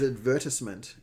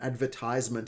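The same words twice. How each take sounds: First: It uses the non-American pronunciation. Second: It uses the American pronunciation. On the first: The speaker calls it right. "I think the correct one is advertisement" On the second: The speaker calls it wrong. "advertisement is American"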